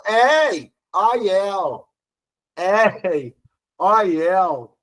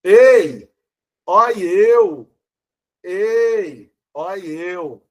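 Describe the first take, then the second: First: "ei, ó eu" with open vowels, "éi, ói, éu"; open diphthongs. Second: "Ei, ó eu" com E fechado, chamando; ditongo fechado. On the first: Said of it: "como o ditongo é aberto". ("ei, ó eu" com ditongos abertos, "éi, ói, éu") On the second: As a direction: say "Ei, ó eu" with closed E, as in "hey". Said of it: "a pronúncia não vai poder ser essa". ("Ei, ó eu" com ê fechado) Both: Shown as a demonstration.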